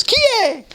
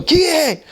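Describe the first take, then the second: First: High, sing-song imitation of the door call; typical Italian doorway call. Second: Repeating the door call. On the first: Demonstrating how locals answer a knock: high sing-song call. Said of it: "it's always". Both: Shown as a demonstration.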